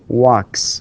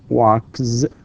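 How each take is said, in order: First: The word ends with a voiceless s sound. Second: The word ends with a voiced z sound. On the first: The speaker calls it right. "it's with s sound" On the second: The speaker calls it wrong. "not walks, not z with z with z sound"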